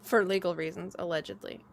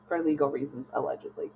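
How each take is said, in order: First: Mock-legal caveat, trailing down; deadpan the disclaimer; dry disclaimer. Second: Softer, fading "allegedly" almost whispered; echoed disclaimer. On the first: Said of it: "legal disclaimer joke". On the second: Echoing her friend's joke legal caveat, fading to a whisper. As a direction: let "allegedly" trail off into a breath. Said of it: "echoing disclaimer". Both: Shown as a demonstration.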